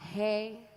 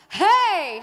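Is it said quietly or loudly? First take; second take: quietly; loudly. First: It is said quietly and weakly. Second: It is said loudly and clearly.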